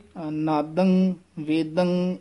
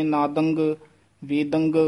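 First: Slow, clean nasal close on ਨਾਦੰ, ਵੇਦੰ; ਨਾਦੰ, ਵੇਦੰ without any ਗ sound at the end; correct nasal ending. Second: ਨਾਦੰਗ, ਵੇਦੰਗ with a hard g tacked onto the end; ਨਾਦੰਗ ਵੇਦੰਗ said wrongly with ਗ; wrong added g. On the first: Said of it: "ਇਸ ਤਰ੍ਹਾਂ ਉਚਾਰਨ ਕਰਨਾ". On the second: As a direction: demonstrate the mistake, a clear g after the nasal. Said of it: "ਇਸ ਤਰ੍ਹਾਂ ਨਹੀਂ". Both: Shown as a demonstration.

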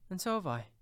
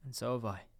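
First: Put-on high, louder child chiming in; exclaiming child. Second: Lightly voiced boy chiming in; Peter. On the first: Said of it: "exclaimed another". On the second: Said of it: "cried Peter". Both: A narrator's reading.

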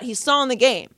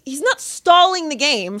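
First: Said in the usual way. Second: "not" pitched up, whole denial slower and higher; stress on NOT. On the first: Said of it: "She's like". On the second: Retold or imitated. Storyteller correcting the heckler, stress on "not". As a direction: contradict firmly, leaning on "not". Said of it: "I was like".

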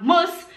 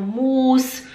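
First: Short U in "muss"; quick, brief "muss"; correct short vowel. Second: Slow, long U in "muss"; students' long vowel. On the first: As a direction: model "muss" without stretching. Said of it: "Em vez de falar muss". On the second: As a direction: drag "muss" into "muus". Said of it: "elas falam muss". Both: Shown as a demonstration.

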